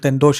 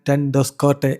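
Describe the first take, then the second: First: The name is said as 'Tendosha'. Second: The name is said as 'Tendoskotte'. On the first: This is how people here usually say it. "നമ്മൾ ടെൻഡോഷ എന്ന് പറയും" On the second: This is how the person's own people say it. "പക്ഷേ അവരുടെ pronunciation"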